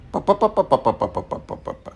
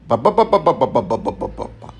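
First: Rapid "পা" repeated higher, with a lighter P; higher-pitched "পা" syllables, falling away at the end; less strong P drill. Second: Rapid-fire "বা" repeated on one breath; string of "বা" syllables, trailing down at the end; strong B drill. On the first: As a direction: pop out "পা" in a light, even string. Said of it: "পি আরেকটু কম strong". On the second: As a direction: drum out "বা" with a firm voiced B. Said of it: "বি যদি strong হয়". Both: Shown as a demonstration.

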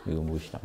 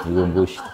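First: 이건 무엇이다 said much softer, inward; quiet sincere demo. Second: Laughing demo. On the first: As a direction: ask "이건" quietly, as to yourself. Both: Shown as a demonstration. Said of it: "이렇게 해야 되죠".

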